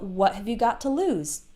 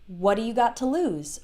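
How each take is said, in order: First: The word 'have' is pronounced fully and clearly. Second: The word 'have' is reduced and shortened, said fast.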